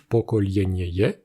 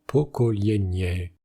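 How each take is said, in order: First: Pokolienieye said in full, with the final syllable -ieye clearly sounded; carefully pronounced full old form; old uncontracted form. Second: Pokolienie said slowly, ending on -ie with no final -ye; slow, careful contracted form. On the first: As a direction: spell out every syllable of pokolienieye, ending on -ieye. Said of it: "représenter par exemple avec le substantif". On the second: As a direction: drop the last syllable and say pokolienie slowly. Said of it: "s'est contracté en". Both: Shown as a demonstration.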